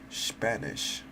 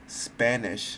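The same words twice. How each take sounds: First: The word is said with a German accent. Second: The word is said with an English accent. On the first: The speaker calls it wrong. "I'm saying it in German" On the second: The speaker calls it right. "Spanish, not Spanish"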